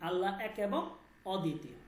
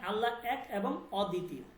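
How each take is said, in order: The two takes are said the same way.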